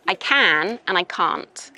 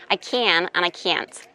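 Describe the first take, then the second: First: Short vowel in "can", long "ah" in "can't"; British "can't" as "cahnt", against short "can"; British pronunciation. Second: Imitated American accent, same vowel in "can" and "can't". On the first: Teacher contrasting her own can and can't, British pronunciation. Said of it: "in British English ... it's can". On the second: Teacher contrasting can and can't for a student, American accent. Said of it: "in American". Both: Shown as a demonstration.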